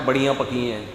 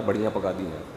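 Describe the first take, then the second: First: Said in the usual way. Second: Put-on lower, softer sulky child's complaint. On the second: Boy sulks to his mother about the dinner, lower and softer whine. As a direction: grumble it like a disappointed boy. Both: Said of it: "اماں کیا پکا دیا یار".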